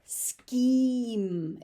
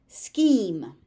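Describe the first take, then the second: First: "Scheme" held as a single long syllable; one syllable scheme. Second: "Scheme" louder, starting with a clear sk. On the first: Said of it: "It's one syllable". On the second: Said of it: "S C H is pronounced sk". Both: Shown as a demonstration.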